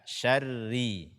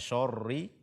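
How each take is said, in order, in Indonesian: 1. Bunyi sh dan r itu ringan dan tipis. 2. Bunyi sh dan r itu berat dan tebal. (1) "akan tetapi baca dengan sya" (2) "menebalkan shin dan ro pada kata syarri, jangan dibaca syarri"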